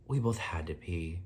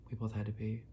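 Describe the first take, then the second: First: Said in the usual way. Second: Softer, dropped repeat like an aside. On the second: Real, not acted. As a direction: say it again under your breath. Repeats the line for emphasis.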